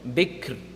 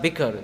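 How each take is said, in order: First: The k runs straight into the final r. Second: A vowel is heard after the k sound. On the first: The speaker calls it right. "it's going to be bik, and then you have to make the ra sound at the end" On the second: The speaker calls it wrong. "it's not bikr"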